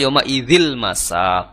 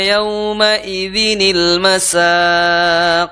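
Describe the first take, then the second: First: The n is dropped and an l is heard. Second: The n is joined to the next word with i.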